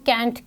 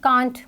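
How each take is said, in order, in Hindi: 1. स्वर 'cat' वाले जैसा सुनाई देता है। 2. स्वर 'car' वाले जैसा सुनाई देता है। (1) "अमेरिकन इंग्लिश में इसको कैंट के तौर पे प्रोनाउंस किया जाता है" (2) "ब्रिटिश में इसको कांट बोला जाता है"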